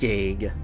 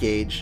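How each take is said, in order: First: The word is said like 'gag'. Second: The word is said like 'gage'. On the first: The speaker calls it right. "That's the true way to say it" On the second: The speaker calls it wrong. "It's not Gage"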